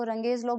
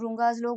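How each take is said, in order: First: रंगेज said with a short first vowel and an "ayj" ending; alternative pronunciation. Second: रुंगाज said with an "oo" first vowel and a long "aaj" ending; alternative pronunciation. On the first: Teacher showing students how some people say the law's name, रंगेज pronounced "run-gayj". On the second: Teacher showing students how others say the law's name, रुंगाज pronounced "roon-gaaj". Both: Shown as a demonstration. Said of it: "इसका pronunciation अलग-अलग लोग अलग-अलग तरह से करते हैं".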